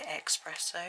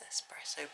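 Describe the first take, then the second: First: The first syllable sounds like 'ex'. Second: The first syllable sounds like 'es'. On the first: The speaker calls it wrong. "I always used to say espresso. It's very wrong" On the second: The speaker calls it right. "S, yes"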